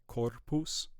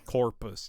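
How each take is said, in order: First: The R is flipped or lightly rolled. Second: The R is an American-style R. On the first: The speaker calls it right. "flip your R or give it a slight roll" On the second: The speaker calls it wrong. "we're trying to avoid that American sounding R"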